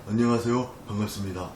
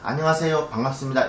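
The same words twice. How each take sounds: First: The voice is slack with no tension at all. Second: The voice is firm with normal throat tension. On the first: The speaker calls it wrong. "목소리를 내려놓는다고 하는 거는 ... 이런 식으로 목소리에 힘이 안 들어간 상태에서" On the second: The speaker calls it right. "우리는 보통 안녕하세요 반갑습니다 이렇게 얘기하잖아요"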